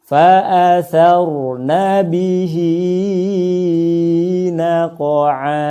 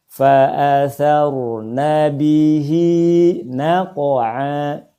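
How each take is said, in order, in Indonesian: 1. Vokal panjang itu dipanjangkan terlalu lama. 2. Vokal panjang itu ditahan selama dua ketukan. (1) "Bacaan seperti barusan itu terlalu panjang" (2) "Cukup dua harokat saja"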